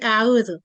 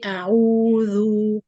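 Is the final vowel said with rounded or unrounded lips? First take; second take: unrounded; rounded. First: The vowel is said without rounding the lips. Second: The vowel is said with lips rounded forward. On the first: The speaker calls it wrong. "doesn't give any dhamma sound" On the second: The speaker calls it right. "I have to bring the lips like this"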